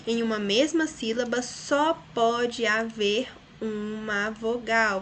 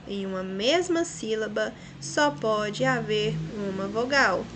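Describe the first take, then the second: First: Slow, with weight on só; slow emphatic repeat. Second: Said in the usual way. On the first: Shown as a demonstration. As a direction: dictate it slowly for the class. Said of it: "vamos repetir aqui". (devagar, ditando com ênfase no só) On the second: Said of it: "Vamos marcar isso daí no livro de vocês".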